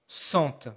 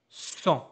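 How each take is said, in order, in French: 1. Un T final est entendu. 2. Aucun T final n'est entendu. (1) "This is not cent" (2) "I know there is a T here, but I don't hear it"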